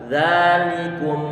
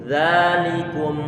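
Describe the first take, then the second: The two takes are said the same way.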